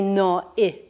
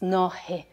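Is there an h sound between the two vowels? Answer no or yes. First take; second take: no; yes. First: The two vowels meet with no h between. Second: A soft h sound separates the two vowels. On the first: The speaker calls it wrong. "I didn't say no I" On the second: The speaker calls it right. "we introduce a soft H there"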